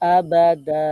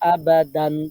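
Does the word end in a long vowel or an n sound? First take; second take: long vowel; n sound. First: The word ends in a lengthened a vowel. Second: The word ends with a short a and n. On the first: The reader stops after this word. "1 জবর বাদ দিয়ে একালিপ টেনে পড়তে হবে" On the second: The reader continues without stopping. "থামার সময় না থামলে আবাদান পড়তে হবে"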